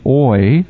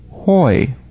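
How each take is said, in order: First: The word starts directly with the vowel. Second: The word starts with an h sound. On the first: The speaker calls it wrong. "instead of saying oi" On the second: The speaker calls it right. "it would be pronounced correctly hoi, the h sound"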